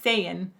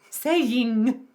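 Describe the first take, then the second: First: The word ends with a softened, casual ending. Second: The word ends with a clear, full ng sound. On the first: "she says saying" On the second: "If I was in opera, I'd be ... saying. It's an N G at the end"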